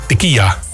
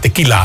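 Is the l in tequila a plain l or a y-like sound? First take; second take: y-like sound; plain l. First: The l is said like a y-like sound. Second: The l is said as a plain l. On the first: The speaker calls it wrong. "Heel veel mensen zeggen tequila" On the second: The speaker calls it right. "Nee, het is tequila. Er zit maar 1L in"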